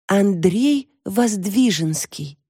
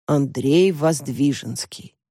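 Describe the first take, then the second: First: Slow, higher, reverent naming; dreamy, drawn-out announcement; lovestruck reveal. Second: Slow, pondering echo of the name; unimpressed, thoughtful recall; puzzled repeat. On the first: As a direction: breathe the name like an idol's. Lovestruck girl reveals the name. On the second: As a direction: repeat it trying to place him. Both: A narrator's reading.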